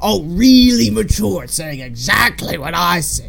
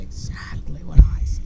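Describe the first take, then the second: First: Exaggerated irritation at being copied; mock annoyed. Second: Whispery fading repeat; imitated echo. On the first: Fan acts the Grinch annoyed with his echo, sarcastic. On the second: Fan plays the echo copying him, whispered.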